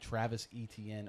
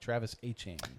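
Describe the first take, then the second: First: The surname is said like 'Etienne'. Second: The surname is said like 'Achan'. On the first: This is the older way of saying the name. The speaker calls it wrong. "or Achan, I should say" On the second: This is how the player says his name now. The speaker calls it right. "That is how he pronounces it now"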